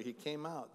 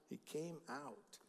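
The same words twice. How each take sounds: First: Said in the usual way. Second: Softer, slower echo of the line; quiet reverent restatement; hushed, slow repeat. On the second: Shown as a demonstration. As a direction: let it fall to a near hush, slowly. Repeated line, last one hushed.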